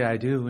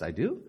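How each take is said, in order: First: Said in the usual way. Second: "I do" with a steep questioning rise on "do"; questioning doubt. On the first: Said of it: "how my wife said it". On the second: Retold or imitated. Bride answering at the wedding, "I do" doubtfully rising like a question. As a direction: say "I do" as an unsure question, "do" swooping upward. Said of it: "that's what, how my wife said it".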